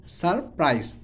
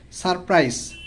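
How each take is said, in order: First: surprise split in two, sar - prais; syllable by syllable. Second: Said in the usual way. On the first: Shown as a demonstration. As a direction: pause inside surprise after "sar". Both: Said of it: "ভেঙে ভেঙে উচ্চারণ করব".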